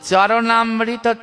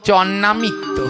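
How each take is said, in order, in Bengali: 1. শব্দটির প্রতিটি অংশ পুরোপুরি উচ্চারিত হয়। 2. শব্দটি ছোট করে, জড়িয়ে একটি সংক্ষিপ্ত রূপে বলা হয়। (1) "কি বললো? চরণামৃত" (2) "তাকে বলছে চন্নামিত্ত"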